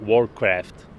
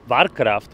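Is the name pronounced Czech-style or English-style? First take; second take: English-style; Czech-style. First: The name is pronounced in an English way. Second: The name is pronounced in a Czech way. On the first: This is the correct form. The speaker calls it right. "ale správně je to" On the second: This is fine among friends. The speaker calls it wrong. "můžete říkat mezi kámošema"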